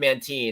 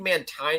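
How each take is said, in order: First: The last syllable has an 'ee' vowel. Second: The last syllable has an 'eye' vowel. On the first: "but I just said Mantine" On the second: "it turns the uh, vowel right before it into the hard I sound. So I think Mantine is right"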